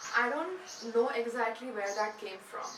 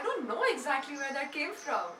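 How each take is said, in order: First: It is said in a low voice. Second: It is said in a high voice.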